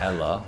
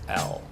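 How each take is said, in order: First: An extra vowel is added after the L sound. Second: It is one syllable with no added vowel. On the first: The speaker calls it wrong. "what we often hear is what?" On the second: The speaker calls it right. "the proper way to say it is L"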